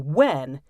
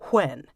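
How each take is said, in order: First: The word starts with a voiced w sound. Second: The word starts with a voiceless, breathy w sound. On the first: This is the common modern pronunciation. "use the voiced consonant w to say when" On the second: This is the older standard pronunciation. "starts with the voiceless consonant w to say when"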